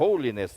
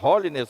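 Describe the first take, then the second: First: The word is said closer to English sounds. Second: The word is said with Brazilian Portuguese sounds. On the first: This is closer to the accepted pronunciation. "mais próxima, né, de uma aceitável pronúncia é holiness" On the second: This is how people usually say it. "A gente fala holiness"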